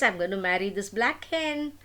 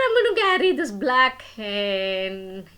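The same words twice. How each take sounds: First: Said in the usual way. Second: Louder, firm insistence; insistent declaration. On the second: Acted. Son insisting to his mother about the hen, loud and firm. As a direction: plant your feet and insist.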